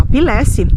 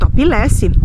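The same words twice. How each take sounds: First: It is said with a Brazilian Portuguese pronunciation. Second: The same.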